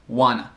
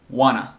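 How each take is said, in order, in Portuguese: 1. As palavras se fundem em 'wanna'. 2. As palavras se fundem em 'wanna'.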